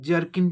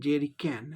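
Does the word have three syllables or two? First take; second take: two; three. First: The word is squeezed into two syllables. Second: The word is said with three full syllables. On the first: The speaker calls it wrong. "अपभ्रंश के रूप में जर्किन भी लोग बोलते हैं" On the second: The speaker calls it right. "इसका सही उच्चारण जेरी कैन है"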